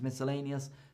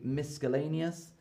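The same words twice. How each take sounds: First: No k sound follows the s. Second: A k sound follows the s. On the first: The speaker calls it right. "When these are together, it's usually silent" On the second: The speaker calls it wrong. "we don't say miscellaneous"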